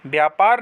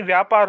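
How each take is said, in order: First: व्यापार as "byaa-paar"; wrong b sound. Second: व्यापार as "vyaa-paar"; correct v sound. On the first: Teacher showing students the mistake, b substituted. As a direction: start व्यापार with by. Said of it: "नहीं". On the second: Teacher giving students the right form, clear v. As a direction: start व्यापार with vy. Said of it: "होगा". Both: Shown as a demonstration.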